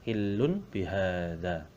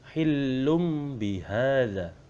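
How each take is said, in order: First: An n sound comes before the b. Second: An m sound comes before the b. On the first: This follows the written letters. "tulisannya adalah hillun bihada" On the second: This is how it must be recited. "tapi cara membacanya hillum bihada"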